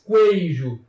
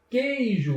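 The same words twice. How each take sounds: First: A w sound is heard after the k. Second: No w sound is heard after the k. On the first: The speaker calls it wrong. "Você não diz queijo" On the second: The speaker calls it right. "e sim queijo"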